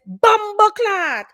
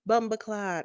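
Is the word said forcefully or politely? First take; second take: forceful; polite. First: It is said loudly and with force. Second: It is said softly and politely. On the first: The speaker calls it right. "You got to really say it with with gusto" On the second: The speaker calls it wrong. "you don't just say it politely"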